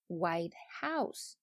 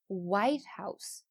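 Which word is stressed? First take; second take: House; White. First: The stress falls on the second word. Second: The stress falls on the first word. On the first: "那如果只是白色的房子呢？" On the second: It names the president's residence. "我们拿一个复合名词白宫怎么说呢？"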